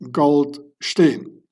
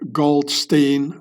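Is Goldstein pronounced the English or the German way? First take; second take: German; English. First: It is pronounced the German way. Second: It is pronounced the English way. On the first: The speaker calls it right. "both Gold and Stein are German words" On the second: The speaker calls it wrong. "most of you guys pronounce it wrong, like Goldstein"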